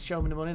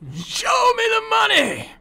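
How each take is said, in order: First: It is said flatly, without energy. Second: It is said loudly, with passion.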